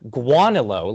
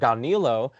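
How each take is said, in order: First: The name begins with a 'gwa' sound. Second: The name begins with a plain 'go' sound. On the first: "like a U A" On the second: "other people say like gonilo"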